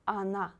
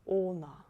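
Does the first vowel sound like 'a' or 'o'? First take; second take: a; o. First: The first vowel sounds like 'a'. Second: The first vowel sounds like 'o'. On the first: The speaker calls it right. "O you read as A" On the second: The speaker calls it wrong. "Please don't say она. It's not correct"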